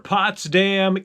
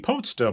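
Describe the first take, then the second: First: The name is said with an American pronunciation. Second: The name is said with a British pronunciation. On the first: "I'm a redneck from Indiana" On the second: "If you're from the U K, it may be"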